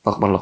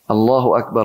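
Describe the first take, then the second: First: It is said quickly and clipped, repeated rapidly. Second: It is said slowly and fully, every syllable clear. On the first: The words are rushed without thought. The speaker calls it wrong. "Tidak, dia cepat" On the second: The words are reflected on and meant. The speaker calls it right. "Sabar. Nggak lama kok"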